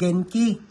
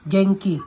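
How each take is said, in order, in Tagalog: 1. Ang n ay tunog na plain n. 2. Ang n ay tunog na ng. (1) "Kung babasahin natin" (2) "Parang may G yan siya, parang geng"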